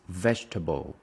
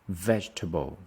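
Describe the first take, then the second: No difference in how they are said.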